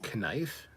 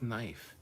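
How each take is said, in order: First: The word begins with a K sound. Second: The word begins without a K sound. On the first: The speaker calls it wrong. "Knife has a K in it. Were you raised to say knife?" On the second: The speaker calls it right. "It's knife"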